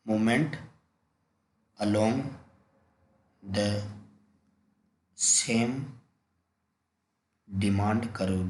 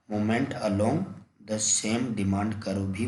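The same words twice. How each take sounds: First: Long pauses between each word; word-by-word dictation. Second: Said in the usual way. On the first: Shown as a demonstration. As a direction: dictate the term one word at a time. Teacher dictates the term slowly. (एक-एक शब्द रुककर लिखवाते हुए)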